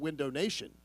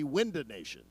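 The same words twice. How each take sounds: First: Window is said with a standard pronunciation. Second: Window is said with a local accent vowel. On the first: The speaker calls it right. "the great folks at Window Nation" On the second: The speaker calls it wrong. "don't want it to be Window Nation"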